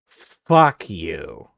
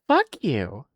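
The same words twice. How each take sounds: First: It is said in a harsh tone. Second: It is said in a sweet tone.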